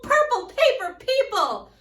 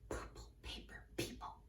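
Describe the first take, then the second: First: It is said in a loud voice. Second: It is said in a quiet voice. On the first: "we'll speak it louder and louder and louder" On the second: "we'll start with a nice quiet tone"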